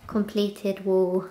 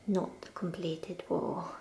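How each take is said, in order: First: Said in the usual way. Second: Whispering. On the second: Real, not acted. Correcting herself under breath.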